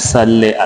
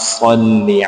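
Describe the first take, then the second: First: The word ends in a short 'e' vowel. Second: The word ends in an 'ee' vowel. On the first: The speaker calls it wrong. "सल्ले नहीं पढ़ना है इसको" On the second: The speaker calls it right. "बल्कि"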